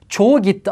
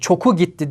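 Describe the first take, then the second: First: The first word has a soft g. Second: The first word has a hard k. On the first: The speaker calls it right. "dediğimde" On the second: The speaker calls it wrong.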